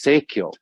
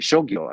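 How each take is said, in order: First: The word begins with a 'say' sound. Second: The word begins with a 'show' sound. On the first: The speaker calls it wrong. "your bibliographers sometimes like to call this seikyo" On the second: The speaker calls it right. "I think, is the right pronunciation"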